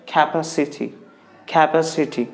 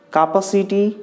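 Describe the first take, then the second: First: Capacity as "ka-PASS-i-tee", carefully modelled; correct pronunciation. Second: Capacity as "KAH-pa-see-tee", pitched higher; wrong pronunciation. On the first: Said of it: "the right way to pronounce this word". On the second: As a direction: mispronounce capacity with open "ah", higher voice. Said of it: "the right way to". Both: Shown as a demonstration.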